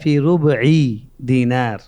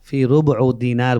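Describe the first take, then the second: First: The vowel after 'rub' sounds like i. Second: The vowel after 'rub' sounds like u.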